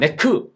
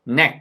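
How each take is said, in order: First: It is said with Korean-style sounds. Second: It is said with native English sounds. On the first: The speaker calls it wrong. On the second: The speaker calls it right.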